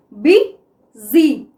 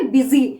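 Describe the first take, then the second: First: "बी", pause, "जी", each syllable on its own. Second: Said in the usual way. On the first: Shown as a demonstration. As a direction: split "बी जी" into two separate beats. Teacher splits word into syllables.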